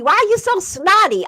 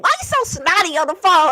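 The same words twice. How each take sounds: First: Irritated, fast and high; annoyed husband voice. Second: Fast, high irritated complaint; aggravated husband. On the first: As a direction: imitate the grumpy husband. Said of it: "my husband called me". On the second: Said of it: "he'd be so aggravated". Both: Retold or imitated.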